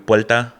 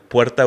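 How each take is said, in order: First: The middle consonant is an L sound. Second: The middle consonant is an R sound. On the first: This is how Puerto Ricans say it. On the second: This is standard Spanish.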